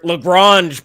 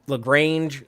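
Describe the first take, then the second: First: The A in the name is not a long A. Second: The A in the name is a long A. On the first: It is the fancy way of saying it. "as Tilly said it in this episode" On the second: It is the Texas way of saying it. "you got to do like the long A"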